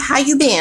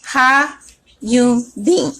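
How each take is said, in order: First: The syllables are run together into one phrase. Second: The syllables are said separately and carefully.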